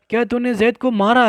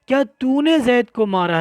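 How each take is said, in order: First: The word मारा carries the stress. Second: The word तूने carries the stress. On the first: The hitting itself is what is being confirmed. "यहाँ मारने को साबित करना है" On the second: Who did the hitting is what is being confirmed. "अब मारा पर जोर नहीं लगाएंगे"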